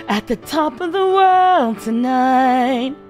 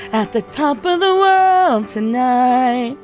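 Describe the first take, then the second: No difference in how they are said.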